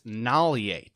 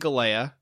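First: The name begins with an N sound. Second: The name begins with a G sound. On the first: The speaker calls it right. "He pronounces it, the G as an N, so it's Nalie" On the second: The speaker calls it wrong. "I've been saying Galea"

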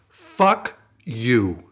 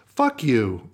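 First: It is said with pointed, forceful energy. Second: It is said flatly, without pointed energy.

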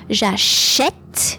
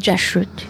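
First: The middle e sound is strong and clear. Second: The middle e sound is weak and barely heard. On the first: The speaker calls it right. "we need to make this a bit stronger" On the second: The speaker calls it wrong. "and not"

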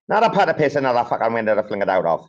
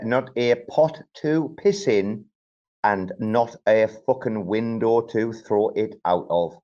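First: It is said in a pikey accent. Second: It is said in a plainer standard accent.

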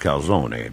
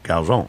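First: The word is said with an Italian pronunciation. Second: The word is said with a Brooklyn pronunciation. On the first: "in Italy, it's calzone" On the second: "in Brooklyn, where I spent all my summers, it's calzone"

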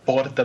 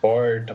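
First: It is said firmly in a Santos accent. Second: It is said with a strong inland retroflex R.

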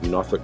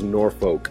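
First: Norfolk is pronounced the way locals say it. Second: Norfolk is pronounced the way outsiders say it. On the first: The speaker has lived in the area. The speaker calls it right. "you can tell I lived in the area because I say it" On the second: The speaker is a visitor to the area. The speaker calls it wrong. "Everybody else says Norfolk, and you know you're a guest when you say that"

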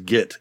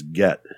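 First: The vowel is short i, as in 'sit'. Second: The vowel is short e, as in 'set'. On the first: "I always thought it was git" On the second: "It's get"

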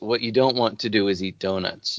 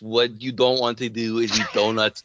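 First: It is read in the speaker's ordinary accent. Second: It is spoken in an imitated foreign accent. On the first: "here's a quote from it" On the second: "here's what you would actually say in the accent"

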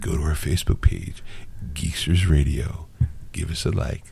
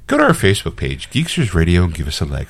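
First: It is said in a smooth, sultry, sexy voice. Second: It is said in a professional announcer voice.

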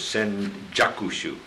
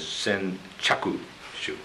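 First: The second syllable starts with a voiced 'j' sound. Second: The second syllable starts with a voiceless 'ch' sound. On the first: This is the name used in one Buddhist school. "In Jodo Shinshu, we refer to this text as Senjakushu" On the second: This is the name used in another Buddhist school. "In Jodo Shu, it's referred to as Senchakushu"

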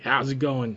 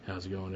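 First: It is said in a lively, up-tempo DJ voice. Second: It is said in a flat, low-energy way. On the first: The speaker calls it right. "the DJ voice, like, ... that's the up-tempo" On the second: The speaker calls it wrong. "even he started off a little like"

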